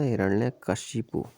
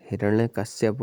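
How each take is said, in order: First: हिरण्यकशिपु ending शिपु, said slowly; the word हिरण्यकशिपु, each syllable paced out; right form kashipu. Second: हिरण्यकश्यप ending in श्यप with a y; the word हिरण्यकश्यप, kashyap at the end; wrong form kashyap. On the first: Teacher slowly giving students the correct form, शिपु at the end. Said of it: "ये उचित शब्द होगा". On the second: Teacher showing students the wrong form, श्यप. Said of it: "वगैरह नहीं होता". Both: Shown as a demonstration.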